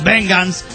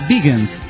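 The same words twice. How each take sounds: First: The word has a Spanish-style pronunciation. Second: The word has an English-style pronunciation. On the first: The speaker calls it wrong. "no puedes decir... Porque no te van a entender" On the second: The speaker calls it right. "se pronuncia vegans"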